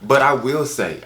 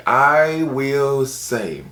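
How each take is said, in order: First: Said in the usual way. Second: "I will say" stretched very slowly; very slow, theatrical "I will say"; drawn-out emphasis. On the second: Pretend. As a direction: hold each word of "I will say", pitched higher. Repeats phrase, stretched for effect.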